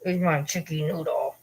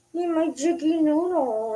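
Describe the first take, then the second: First: Said in the usual way. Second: High, slow cooing to a pet; doting pet talk. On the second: Real, not acted. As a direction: coo it high and drawn out.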